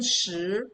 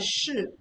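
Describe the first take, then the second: First: It is said with the second tone. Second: It is said with a different tone. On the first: It means ten. "The second tone shi is ten" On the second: It means is. "The other one, shi, or shi, is is"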